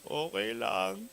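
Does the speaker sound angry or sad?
sad. It is said in a sad tone.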